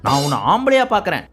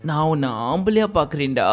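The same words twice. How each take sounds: First: Said in the usual way. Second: With mood. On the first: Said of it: "modulation தான் கொஞ்சம் மாத்திருக்கணும்". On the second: Shown as a demonstration. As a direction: say it tenderly, lower and softer. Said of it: "அப்படி மூடோட பேச வேண்டிய".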